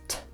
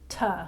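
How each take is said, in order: First: The consonant is clipped with no vowel after. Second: The consonant is followed by an added uh vowel. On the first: The speaker calls it right. "T says T" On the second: The speaker calls it wrong. "not T"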